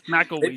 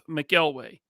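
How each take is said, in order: First: The last syllable sounds like 'wee'. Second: The last syllable sounds like 'way'. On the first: The speaker calls it right. "It's McElwee" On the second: The speaker calls it wrong. "He said it wrong"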